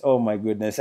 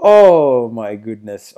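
First: "oh my goodness" said softer and lower, trailing off; hushed oh my goodness. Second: "Oh my goodness" drawn out very slowly and louder, stretching the "oh"; slow awestruck oh my goodness. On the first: Still stunned by the trailer, a soft falling "oh my goodness". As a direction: let it fall away into a hush. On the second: Overwhelmed by the trailer, a slow loud drawn-out "oh my goodness". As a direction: stretch out the "oh" in awe. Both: Real, not acted. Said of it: "I'm just so hyped".

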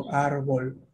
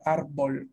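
First: "árbol" with a soft, gliding B; "árbol" with a relaxed, soft B. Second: "Árbol" with a strong, stopped B; "Árbol" with the B clearly marked; hard B. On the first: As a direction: let the B in "árbol" slide softly between the vowels. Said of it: "con una B así más suave". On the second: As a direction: press the lips and pop the B in "Árbol". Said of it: "la he dicho con la B marcándola". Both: Shown as a demonstration.

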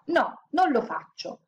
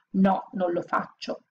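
First: Slow, higher, dug-in refusal; each word planted like a refusal; stubborn. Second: Slow, mocking echo of the refusal; mock quote. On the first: Orphan girl defying her mistress, stubbornly. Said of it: "continuava a ripetere ostinata". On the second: Mistress mocking the girl's refusal, sneering. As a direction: parrot her words back with scorn. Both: A narrator's reading.

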